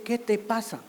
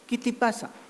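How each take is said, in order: First: The first two vowels are mid e sounds. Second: The first two vowels are raised to i sounds. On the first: The speaker calls it right. "en vez de decir ¿qué te pasa?" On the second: The speaker calls it wrong. "el alzamiento vocálico o cierre vocálico"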